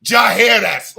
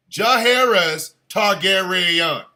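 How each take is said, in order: First: "Jaehaerys" shouted loud in disbelief; shouted name. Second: "Jaehaerys Targaryen" slowly, every syllable stretched; drawn-out name. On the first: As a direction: bellow "Jaehaerys" like it's ridiculous. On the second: Savouring the long name slowly. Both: Shown as a demonstration.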